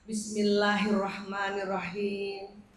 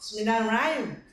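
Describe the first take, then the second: First: It is said unhurriedly and carefully. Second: It is said hurriedly and rushed.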